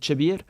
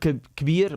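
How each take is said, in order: First: The word begins with a CH sound. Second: The word begins with a K sound. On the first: This is the dialect form. "you would say chabir" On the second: This is the usual form. "instead of kabir"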